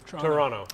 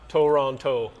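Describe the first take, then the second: First: The word is said in a shortened, clipped way. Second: The word is said with every syllable full. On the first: This is how locals say it. The speaker calls it right. "Torontonians pronounce it Toronto" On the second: This is how outsiders say it. The speaker calls it wrong. "Not Toronto"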